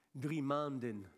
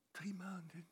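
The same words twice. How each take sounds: First: Said in the usual way. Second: Whispered disbelieving echo; hushed, shocked patient's reply; stunned whisper. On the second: Retold or imitated. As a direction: repeat it under your breath, aghast. Patient stunned by doctor's answer.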